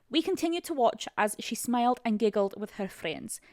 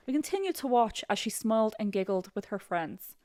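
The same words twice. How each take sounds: First: Put-on amateur Scottish accent; attempted Scottish accent. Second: Put-on amateur Irish accent; attempted Irish accent. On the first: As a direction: read it with a shaky grasp of Scottish. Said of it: "My, my friend Molly is Scottish". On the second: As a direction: read it with a rough Irish lilt. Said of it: "Let me try an Irish accent".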